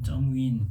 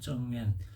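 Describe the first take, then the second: First: The second syllable has an 'ee' vowel sound. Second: The second syllable has an 'eh' vowel sound. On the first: The speaker calls it wrong. "정윈 발음이 좀 그렇지만" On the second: The speaker calls it right. "정웬이라고 표현하는 게 맞겠죠"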